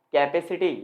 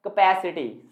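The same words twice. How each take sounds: First: कैपेसिटी as KAI-pe-si-ti; full "kai-pe" at the start of कैपेसिटी; common mispronunciation. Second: कैपेसिटी as kuh-PASS-i-ti; weak first syllable, strong second in कैपेसिटी; correct pronunciation. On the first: Teacher echoing how students say it, common mispronunciation. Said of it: "आप इसे बोलते हैं". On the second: Teacher answering what is correct, correct pronunciation. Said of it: "सही pronunciation क्या है". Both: Shown as a demonstration.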